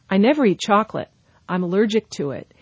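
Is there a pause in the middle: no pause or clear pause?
clear pause. There is a clear pause between the two clauses. The words form two separate sentences. The speaker calls it right. "you can actually hear where the period's supposed to go"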